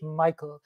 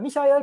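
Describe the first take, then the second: First: The name is said with English pronunciation. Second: The name is said with German pronunciation. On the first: "pronouncing English Michael" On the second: "Pronouncing German Michael"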